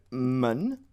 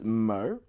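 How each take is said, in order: First: Men slowly with a clear n ending; plain southern men; southern Mandarin men. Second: Mer slowly with a curled r ending; r-colored mer, drawn out; northern erhua mer. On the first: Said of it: "So it's either men". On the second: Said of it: "or it's mer". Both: Shown as a demonstration.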